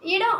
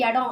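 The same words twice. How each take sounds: First: The word begins with an 'i' vowel. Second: The word begins with an 'e' vowel. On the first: This is the common Tamil form. "இடம் அப்படின்றத" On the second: This is the Jaffna Tamil form. "ஈ இருக்கிற இடத்துல ஏ போட்டு பேசுவாங்க"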